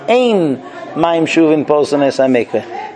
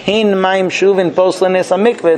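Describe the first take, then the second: First: The first word begins with a vowel. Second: The first word begins with an h sound. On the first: The speaker calls it wrong. "couldn't pronounce the hey... it sounded like" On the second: The speaker calls it right. "When they wanted to teach"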